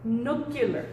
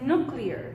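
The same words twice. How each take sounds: First: A vowel is added between k and l. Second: The k and l sounds come together. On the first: "dicen nuclear" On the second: "no dicen nuclear"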